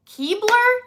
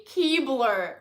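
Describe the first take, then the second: First: "Keebler" pitched up high as a question; loud, rising disbelief on "Keebler"; incredulous question. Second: "Keebler" falling, at ordinary pitch; deadpan repeat. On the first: Vlogger doubting the brand name, "Keebler" rising incredulously. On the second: Vlogger testing the brand name again, "Keebler" dropping skeptically. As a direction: say "Keebler" as a falling, doubtful statement. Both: Real, not acted.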